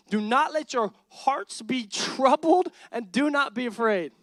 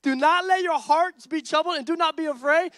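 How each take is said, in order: First: Said in the usual way. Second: Higher and louder, pressing; fiery repeat. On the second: Real, not acted. Pastor challenging fearful followers, higher and louder. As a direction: hit it harder the second time. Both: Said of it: "Where my Jesus followers been".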